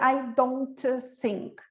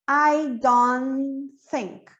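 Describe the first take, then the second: First: The t of don't is clearly pronounced. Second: The t of don't is dropped. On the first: The speaker calls it wrong. "Eu não vou dizer I don't think" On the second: The speaker calls it right. "a gente não repete a primeira"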